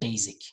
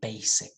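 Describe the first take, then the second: First: The middle consonant is a buzzing z sound. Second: The middle consonant is a hissing s sound. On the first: The speaker calls it wrong. "we don't have a z sound ... not basic" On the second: The speaker calls it right. "We have a s sound. ... say basic"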